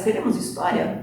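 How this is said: It is said as a question, rising.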